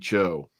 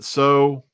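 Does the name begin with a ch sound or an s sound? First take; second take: ch sound; s sound. First: The name begins with a ch sound. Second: The name begins with an s sound. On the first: The speaker calls it right. "he preferred the pronunciation Yi Cho" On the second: The speaker calls it wrong. "I used to pronounce it so because that's how you know a Westerner like myself would look at it"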